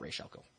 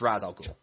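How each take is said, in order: First: The first word ends with an 'sh' sound. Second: The first word ends with an 's' sound. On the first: The speaker calls it wrong. "It's not Raish al Ghul. That's stupid and it sounds weird" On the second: The speaker calls it right. "It's Ra's al Ghul"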